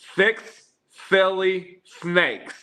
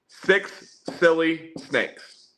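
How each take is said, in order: First: The s sounds are lisped, like th. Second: The s sounds are clear, with no lisp. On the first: "Here's with the lisp" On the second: "Here's normal"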